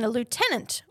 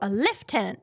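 First: Lieutenant is said in a non-British pronunciation. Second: Lieutenant is said in the British pronunciation.

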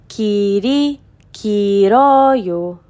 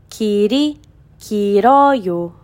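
No difference in how they are said.

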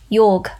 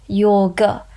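First: The word is said without its final vowel. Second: The word is said in full with its final vowel. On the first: This is the casual, everyday form of the word. "or casually pronounced yog" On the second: This is the careful, full form of the word. "The correct pronunciation, by the way, is yoga"

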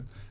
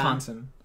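First: It is said with a reduced middle syllable. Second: It is said with a clearly pronounced 'con'.

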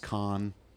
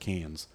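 First: The word is said with a non-American pronunciation. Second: The word is said with an American pronunciation. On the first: This is the proper way to say the name. The speaker calls it right. "I never say this word right. It's, I guess it's Cannes" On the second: This is an uninformed way to say the name. The speaker calls it wrong. "I always said Cannes, but that's, I'm an American redneck"

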